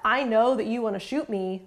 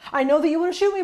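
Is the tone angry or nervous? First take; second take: angry; nervous. First: The voice sounds angry and stern. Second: The voice sounds nervous and hurried. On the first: The parent is annoyed at the child. "parents will sometimes sound angry when they're reflecting feelings" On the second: The parent is anxious to get the words out before something bad happens. "Sometimes they will sound nervous when they're reflecting feelings. ... I have to hurry up and get this out because this bad thing's going to happen"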